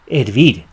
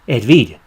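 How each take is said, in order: No difference in how they are said.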